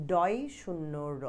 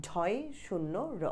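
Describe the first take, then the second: First: Slow spelled-out ডয় শূন্য র; slow dictation pace; slow and clear. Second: Slow spelled-out ঢয় শূন্য র, softer; slow dictation pace; slow and clear. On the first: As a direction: say ডয় শূন্য র slowly for students. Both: Shown as a demonstration. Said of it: "ডয় শূন্য র আছে".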